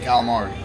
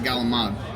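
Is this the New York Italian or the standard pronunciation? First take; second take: standard; New York Italian. First: It is said in the standard way. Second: It is said in a New York Italian way. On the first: This is how outsiders say it. The speaker calls it wrong. "you don't say calamari" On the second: This is how locals of Italian descent say it. The speaker calls it right. "we say in New York fried galamad"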